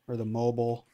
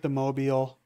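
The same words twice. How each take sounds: First: Mobile with a short, reduced ending; pronounced mo-bull. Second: Mobile ending in a long beel; pronounced mo-beel. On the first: Player offering the other way, mobile said as MO-bl. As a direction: say mobile as MO-bl, rhyming with noble. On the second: Player unsure of the word, mobile said as MO-beel. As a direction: stretch the end of mobile, MO-beel. Offers two pronunciations of mobile. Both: Shown as a demonstration.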